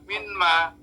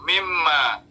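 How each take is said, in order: First: The n is kept separate before the m. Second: The n merges into a doubled m sound. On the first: This is the original, unassimilated form. "Tadinya kan min dan ma" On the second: This is how the words are actually read. "dibacanya mim, mimma"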